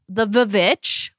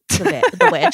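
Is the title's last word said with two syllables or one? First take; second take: two; one. First: The last word has two syllables, starting with v. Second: The last word has one syllable, starting with w. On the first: The title's spelling with two V's is read out literally. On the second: The title is read as the ordinary word.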